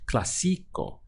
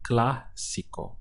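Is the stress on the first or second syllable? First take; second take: second; first. First: The stress is on the second syllable. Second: The stress is on the first syllable. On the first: The speaker calls it wrong. "If the accent was over the I" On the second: The speaker calls it right. "you have to stress that part of the word"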